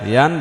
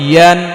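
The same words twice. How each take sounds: First: The 'y' is said lightly, tongue not pressed. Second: The 'y' is said with the tongue pressed up. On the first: The speaker calls it wrong. "ইয়ান ইয়ান ইয়ান বলা যাবে না" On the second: The speaker calls it right. "ইয়া ইয়া একটু চাপিয়ে বলতে হবে"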